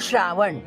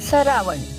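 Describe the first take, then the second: First: The word begins with a 'shr' cluster. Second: The word begins with a 'sar' syllable. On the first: This is the standard Marathi form. "आपण म्हणतो" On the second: This is the Zadi dialect form. "ते म्हणतात"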